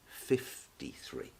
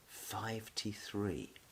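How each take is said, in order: First: The number begins with the shortened sound 'fif'. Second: The number begins with the full sound 'five'. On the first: The speaker calls it right. "We say it fifty-three" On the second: The speaker calls it wrong. "that's not spoken like that"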